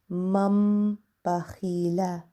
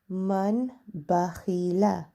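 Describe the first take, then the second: First: An m sound is heard before the b. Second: An n sound is heard before the b. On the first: "But with the meme, the correct pronunciation will be" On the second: "We have without the meme"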